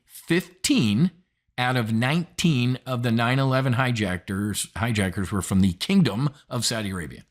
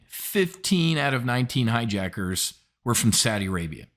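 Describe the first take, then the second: First: "Fifteen" pitched up and punched, the rest spelt out; deliberate, slowed repeat. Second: Said in the usual way. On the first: Shown as a demonstration. Host repeating the hijacker count to viewers, deliberate and stressed. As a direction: drive each number home. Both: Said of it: "Let me say that again slowly".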